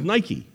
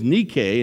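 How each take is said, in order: First: It is said like the familiar shoe brand. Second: It is said with the original Greek pronunciation. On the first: "the translation we hear all the time is Nike, like the Nike shoe" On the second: "The correct pronunciation, the Greek word is Nike"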